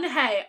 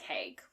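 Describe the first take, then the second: First: The name ends on a vowel sound. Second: The name ends with a hard g sound. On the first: The speaker calls it right. "it is hey" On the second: The speaker calls it wrong. "I'm gonna pronounce it like Haig"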